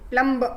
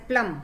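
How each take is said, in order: First: "प्लम ब" higher and louder, with an extra "buh"; sounded B, wrong. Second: "प्लम" closing on M, no B sound; silent B. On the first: Teacher showing what not to say, "प्लम ब" with B sounded. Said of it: "ब नहीं बोलते". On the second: Teacher showing the class silent B, "प्लम" ending on M. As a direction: say "प्लम" and stop at the M. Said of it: "तो एम बोलते हैं हम". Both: Shown as a demonstration.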